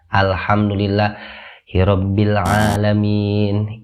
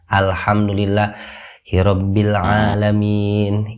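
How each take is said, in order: First: A breath pause breaks the middle. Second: The same.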